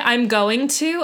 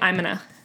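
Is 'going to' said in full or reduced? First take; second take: full; reduced. First: Each word of going to is said in full. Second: Going to is squeezed into one reduced word. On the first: "I don't say I'm going to" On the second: "I say I'm gonna. ... I'm a lazy speaker"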